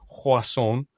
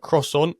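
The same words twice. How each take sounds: First: It is said with a French-style pronunciation. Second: It is said with an English-style pronunciation. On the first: The speaker calls it right. "bit better" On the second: The speaker calls it wrong. "my poor French pronunciation"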